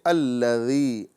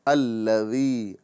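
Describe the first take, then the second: The two takes are said the same way.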